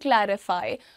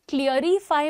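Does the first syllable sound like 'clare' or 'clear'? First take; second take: clare; clear. First: The first syllable sounds like 'clare', not 'clear'. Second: The first syllable sounds like the word 'clear'. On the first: The speaker calls it right. "That is क्लैरिटी and क्लैरिफाई" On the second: The speaker calls it wrong. "इसमें क्लियरिफाई मत बोलिएगा"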